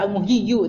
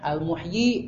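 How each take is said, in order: First: The word ends with an extra 'yu' syllable. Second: The word ends with a short 'yi' sound. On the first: The speaker calls it wrong. "tidak usah dibaca al-muhyiyu, tidak ya" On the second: The speaker calls it right.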